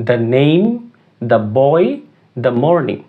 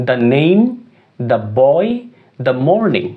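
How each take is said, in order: The two takes are said the same way.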